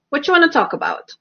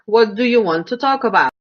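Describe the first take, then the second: First: The words are run together and reduced. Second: Each word is said clearly and separately.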